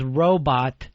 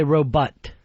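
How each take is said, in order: First: ROBOT said slowly with a full "bot"; standard pronunciation. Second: ROBOT ending in "butt"; imitated mispronunciation. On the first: Shown as a demonstration. Host correcting his partner, standard pronunciation. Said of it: "this is what it's saying. The word is robot". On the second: Host mimicking his partner, imitated mispronunciation. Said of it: "and you say".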